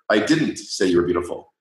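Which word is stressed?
didn't. The stress falls on "didn't". "if you put the emphasis on the second word"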